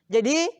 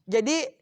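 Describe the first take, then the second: No difference in how they are said.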